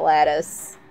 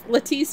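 First: The word is said with a plain English pronunciation. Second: The word is said with a French-sounding pronunciation. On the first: "Not lattice" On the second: "because it sounds French to me, and lattice would be French"

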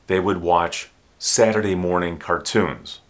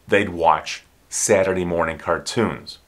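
First: The word would is said in full. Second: Would is shortened to a faint d sound.

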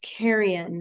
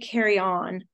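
First: The word ends in a weak, reduced syllable. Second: The word ends in a full 'on' sound. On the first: The speaker calls it right. "That's how you would pronounce that word" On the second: The speaker calls it wrong. "I was saying it wrong"

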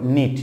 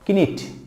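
First: No 'k' sound is heard before the 'n'. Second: A 'k' sound is heard before the 'n'. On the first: The speaker calls it right. "and it came up knit" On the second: The speaker calls it wrong. "it's not kinnit"

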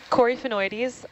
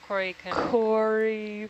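First: The word is said at normal speed. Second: The word is said slowly.

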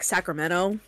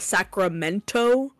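First: The T sound in the middle is dropped. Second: The T sound in the middle is pronounced.

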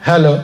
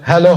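The two takes are said the same way.

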